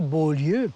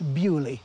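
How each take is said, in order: First: The name is given a French pronunciation. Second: The name is given a British pronunciation. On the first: This is how the name is written. "On écrit Beaulieu" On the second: This is how the name is actually pronounced. "mais ça se prononce Bewley, euh, en, en, en britannique"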